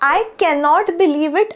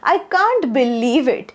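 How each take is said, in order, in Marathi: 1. हे पूर्ण रूपात cannot असे म्हटले जाते. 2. हे छोट्या रूपात can't असे म्हटले जाते. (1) "Cannot चं कॉन्ट्रॅक्शन" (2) "त्याचा एक शब्द होतो can't"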